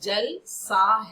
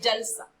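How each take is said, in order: First: A short pause falls between jal and sa. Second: It is said smoothly with no internal pause. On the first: It is like water. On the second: A festive gathering is going on.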